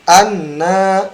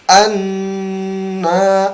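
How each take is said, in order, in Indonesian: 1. Bunyi n langsung dilepas, tidak ditahan. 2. Bunyi n ditahan dan ditekan dulu sebelum dilepas. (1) "bukan anna ya" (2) "tapi anna ya"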